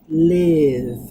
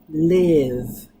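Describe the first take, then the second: Both takes have the same delivery.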